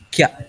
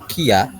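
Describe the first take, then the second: First: It is said as one merged syllable, kya. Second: It is said as two separate syllables, ki-ya. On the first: The speaker calls it right. "tapi langsung jadi kia" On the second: The speaker calls it wrong. "bukan jadi kia"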